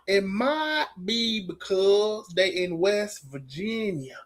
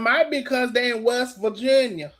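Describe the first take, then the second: First: It is said in a put-on accent. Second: It is said in the speaker's plain voice.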